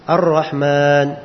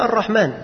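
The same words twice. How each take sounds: First: The vowel is drawn out in recitation style. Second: The vowel is said at ordinary speaking length. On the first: It is recited as Quran reading. "beliau panjangkan juga ar-rahman" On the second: It is ordinary speech, not recitation. "Kalau dibaca biasa"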